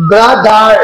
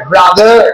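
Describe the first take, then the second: First: ব্রাদার broken into two separate syllables, ব্রা, দার; ব্রা-দার, each syllable sounded out on its own; split into syllables. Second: Said in the usual way. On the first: Shown as a demonstration. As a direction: say ব্রাদার syllable by syllable to show the second one. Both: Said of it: "second syllable মানে".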